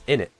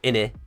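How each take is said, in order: First: The word ends with an abrupt throat cut-off. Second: The word ends on an open vowel without stop. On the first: The speaker calls it right. "You have to pronounce the T without pronouncing the T" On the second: The speaker calls it wrong. "it's not inni or inni without the T"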